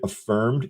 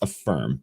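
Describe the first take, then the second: First: The name ends with a final 'd' sound. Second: The name ends without a final 'd' sound. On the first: The speaker calls it wrong. "I might keep calling it Affirmed" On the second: The speaker calls it right. "It's Affirm"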